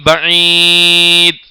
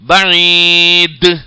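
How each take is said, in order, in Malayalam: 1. അവസാനത്തെ d പ്രതിധ്വനി ഇല്ലാതെ മുറിച്ചു നിർത്തുന്നു. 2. അവസാനത്തെ d പ്രതിധ്വനിയോടെ കുതിച്ചു വിടുന്നു. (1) "എന്ന് പറഞ്ഞാൽ തെറ്റാണ്" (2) "എന്ന് തന്നെ പറയണം"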